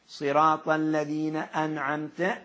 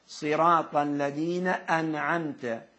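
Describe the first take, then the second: The two takes are said the same way.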